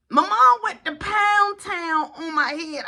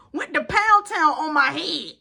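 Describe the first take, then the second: First: Slow, higher, emphatic wail; drawn-out complaint. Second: Said in the usual way. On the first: Retold or imitated. Son telling how mom hit him, slow emphatic complaint. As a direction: stretch out "Pound Town" in outrage.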